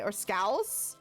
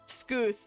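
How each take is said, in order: First: The vowel is like the one in cow. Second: The vowel is not like the one in cow. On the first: "Like a cow?" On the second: "Say it like that, maybe"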